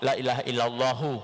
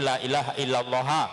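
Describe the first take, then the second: First: The final word ends with an 'u' vowel. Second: The final word ends with an 'a' vowel. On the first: "kalau dibaca dhammah" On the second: "Kalau dibaca fathah"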